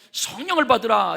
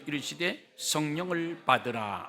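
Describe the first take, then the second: First: Louder, words pushed out on a breath; as if breathing the Spirit out with "받으라". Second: Said in the usual way. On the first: Shown as a demonstration. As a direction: blow "성령을" out on the exhale. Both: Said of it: "이렇게 하면 됐지".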